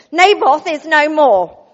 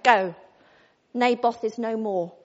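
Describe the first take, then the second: First: Loud, slow and solemn; grand pronouncement. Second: Mock solemn pronouncement. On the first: Acted. Jezebel grandly announcing Naboth's death to Ahab. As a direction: announce it like a herald of doom. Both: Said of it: "I expect she didn't speak like that".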